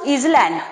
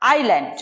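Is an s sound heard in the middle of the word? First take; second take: yes; no. First: An s sound is heard in the middle. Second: No s sound is heard in the middle. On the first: The speaker calls it wrong. "You don't pronounce आइलैंड" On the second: The speaker calls it right. "You pronounce आइलैंड"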